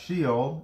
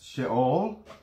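First: It is said with an English pronunciation. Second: It is said with a Hebrew pronunciation.

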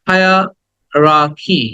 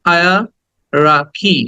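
No difference in how they are said.

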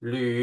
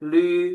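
First: It is said with the third Mandarin tone. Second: It is said with the first Mandarin tone. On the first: "หลีเสียงที่สาม" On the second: "ลีเสียงที่หนึ่ง"

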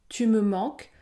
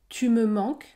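First: Spoken slowly with the e in me pronounced. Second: Spoken slowly with the e in me pronounced.

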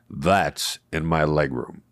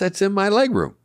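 First: The line is said in a blunt, confrontational tone. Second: The line is said in a light, joking tone. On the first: The remark would start a conflict. The speaker calls it wrong. "my natural tone of voice would have been, ... which would have been like confrontational" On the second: The remark is friendly and avoids a fight. The speaker calls it right. "since I said it jokingly"

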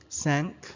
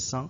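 First: The vowel sounds like the a in thank. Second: The vowel sounds like the u in sunk. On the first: The speaker calls it right. "it's actually cinq. It's like thank" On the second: The speaker calls it wrong. "Last time we pronounced it as cinq"

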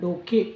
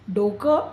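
First: The word ends in a clear e vowel. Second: The word ends in a short nasal vowel. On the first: This is the formal written form. "लिहिताना डोके असं म्हणतो" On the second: This is the everyday spoken form. "आपण बोलताना जरी म्हटलं"

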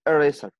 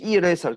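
First: The word begins with an 'eh' vowel. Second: The word begins with an 'ee' vowel. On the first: The speaker calls it right. "تقول eraser" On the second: The speaker calls it wrong. "انت ما بتقولش اي eraser"

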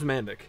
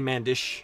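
First: The name ends with a hard k sound. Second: The name ends with a soft ch sound. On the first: "my name's Mandic" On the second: "It's technically Mandish, or something like that, the proper, like, Croatian or Balkan pronunciation"

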